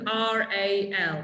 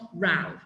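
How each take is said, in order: First: Each letter is said separately. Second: The letters are run together as one word. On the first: The speaker calls it right. "you pronounce each letter separately" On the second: The speaker calls it wrong. "it's not R A L"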